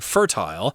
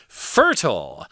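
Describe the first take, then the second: First: It is said with a British pronunciation. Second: It is said with an American pronunciation. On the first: "people from England saying fertile" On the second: "which is the American pronunciation"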